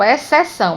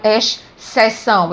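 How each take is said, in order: First: The x and c are said as one s sound. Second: The x and c are said as two sounds. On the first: The speaker calls it right. "eu falo exceção" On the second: The speaker calls it wrong. "eu não falo exceção"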